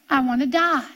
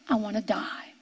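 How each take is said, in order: First: Said in the usual way. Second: Low, soft and sinking; preacher sinks his voice quoting Jesus' despair; hushed. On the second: Acted. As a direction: let it fall almost to nothing. Quoting Jesus, repeated line.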